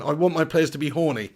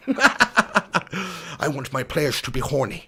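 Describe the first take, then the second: First: Said in the usual way. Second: Put-on slow, slurred generic Dutch accent; Louis Van Gaal. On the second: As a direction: put on a hammed-up Dutch football manager's accent. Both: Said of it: "can you please do a Van Gaal accent".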